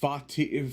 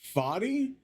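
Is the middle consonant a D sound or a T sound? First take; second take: T sound; D sound. First: The middle consonant sounds like a T. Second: The middle consonant sounds like a soft D. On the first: The speaker calls it right. "but Fati. I think I should be pronouncing the T better" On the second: The speaker calls it wrong. "his name is not Fadi"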